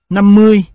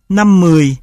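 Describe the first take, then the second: First: "mươi" in the level unmarked tone; "năm mươi" with both syllables on level tone; level-tone assimilation. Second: Said in the usual way. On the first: Shown as a demonstration. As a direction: keep "mươi" level, without the falling tone. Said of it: "sang thanh không dấu". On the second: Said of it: "chuyển từ thanh huyền".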